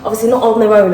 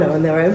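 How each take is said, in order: First: "not" punched louder and higher; stress on not. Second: Said in the usual way. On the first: Real, not acted. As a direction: lean hard on "not" to correct yourself. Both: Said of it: "For those of you that are about to judge".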